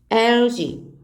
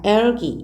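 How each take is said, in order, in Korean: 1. 가운데 자음은 'j' 소리처럼 나요. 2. 가운데 자음은 센 'g' 소리예요.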